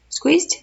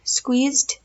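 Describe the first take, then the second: First: Squeezed? asked with a high rising lilt, unsure of the word; unsure questioning rise. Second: Said in the usual way. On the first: Shown as a demonstration. Checking to viewers whether squeezed is right, rising. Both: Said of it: "We'll go with squeezed".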